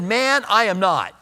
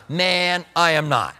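First: Said in the usual way. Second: Laid-back seventies "man", drawn out a little; seventies slang. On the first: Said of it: "And here he sounds like the seventies". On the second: Acted. Preacher joking that Peter talks like his era, lightly voiced seventies slang. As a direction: lightly play it like a seventies guy. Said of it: "here he sounds like the seventies".

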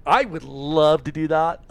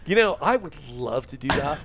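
First: "I would love to do that" slower and louder; emphatic repeat. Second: Said in the usual way. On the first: Shown as a demonstration. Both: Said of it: "I'll say it again".

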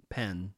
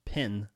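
First: "pen" with an open e; pen vowel. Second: "Pin" with a short i; pin vowel. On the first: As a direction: say "pen" with the e of bed. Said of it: "that's a pen". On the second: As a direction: say "Pin" with the i of sit. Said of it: "that's not a pin, that's a pen". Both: Shown as a demonstration.

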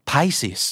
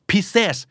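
First: Pisces said as "PIE-seez"; PIE-sees, long "eye" in Pisces; correct Pisces reading. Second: Pisces misread as "pi-SES"; mistaken Pisces reading. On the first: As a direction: say Pisces with "pie" first, silent first S. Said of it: "ราศีนี้อ่านว่า". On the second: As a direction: say Pisces with short "pi" and "ses" ending. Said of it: "อาจจะอ่านเหมือนที่ผมเคยอ่านว่า". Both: Shown as a demonstration.

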